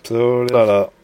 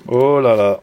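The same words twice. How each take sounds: The two takes are said the same way.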